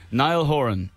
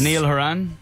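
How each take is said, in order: First: The first name is said the usual way. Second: The first name is said the mangled way. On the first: This is how the name is meant to sound. The speaker calls it right. "You say your name for us" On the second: This is how others get the name wrong. The speaker calls it wrong. "What's the worst pronunciation of your name that you've heard?"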